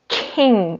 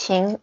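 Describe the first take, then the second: First: It sounds like the English word king. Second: It does not sound like English king. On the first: The speaker calls it wrong. "Many people thought the pronunciation is king, it's like the queen" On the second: The speaker calls it right. "No, it's Qing, it's just Qing"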